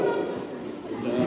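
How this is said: It is said in a sheepish, guilty tone. The fathers know they leave the job to the mothers. "Bapaknya dengan nada rasa bersalah"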